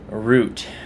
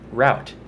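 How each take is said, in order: First: It sounds like the word root. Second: It sounds like a word rhyming with out. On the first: "just like the root of a tree" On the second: "Or route"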